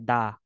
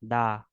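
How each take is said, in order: The two takes are said the same way.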